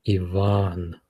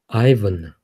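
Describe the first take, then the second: First: The stress is on the second syllable. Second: The stress is on the first syllable.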